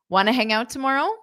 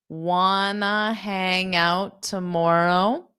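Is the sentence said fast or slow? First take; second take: fast; slow. First: The sentence is said quickly. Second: The sentence is said slowly. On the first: "I'll say it again" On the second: "Now I'll say it slow"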